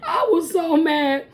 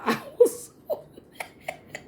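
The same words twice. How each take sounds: First: Higher, emphatic exasperation; exasperated. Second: Breathless laughing through the words. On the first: Recalling the failed test, exasperated with a quiver. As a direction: lean into the frustration with a quiver. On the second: Telling how mad she was, laughing it off. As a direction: laugh it out, high and airy. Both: Real, not acted.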